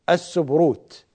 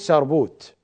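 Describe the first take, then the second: First: The b sound comes before the r sound. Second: The r sound comes before the b sound. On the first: This is the standard classical form. "اللفظة أساسا السبروت" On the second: This is the Iraqi colloquial form. "في لهجتنا الشعبية العراقية نقول سربوت"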